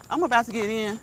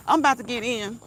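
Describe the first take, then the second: No difference in how they are said.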